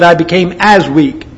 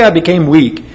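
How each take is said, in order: First: "as" lifted and held a little longer; stress on AS. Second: Said in the usual way. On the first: Shown as a demonstration. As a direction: lean on the word "as" in "I became as weak". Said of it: "Notice the similes". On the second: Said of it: "Notice the similes. He didn't say".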